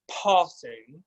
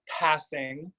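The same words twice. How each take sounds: First: Passing with a flat American a. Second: Passing with a broad British ah. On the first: Coach demonstrates the other vowel to avoid: flat American passing. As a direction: say passing with the short flat a, slowly. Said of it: "and not passing". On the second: Coach demonstrates the vowel to avoid: passing with a British ah. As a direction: say passing with the long aw vowel like a Brit. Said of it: "instead of passing". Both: Shown as a demonstration.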